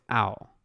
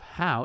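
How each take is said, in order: First: The word begins with no H sound. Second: The word begins with an audible H sound. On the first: "The H is silent" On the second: "So instead of how"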